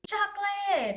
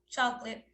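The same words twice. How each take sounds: First: It is said in a happy tone. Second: It is said in a sad tone.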